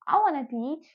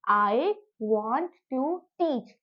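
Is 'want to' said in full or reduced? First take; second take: reduced; full. First: Want and to blend into one word, wanna. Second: Want and to are said as two full words. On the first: It sounds casual, like a native speaker. "बोल सकते हो वाना" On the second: It is the simple standard way to say it. "वांट टू"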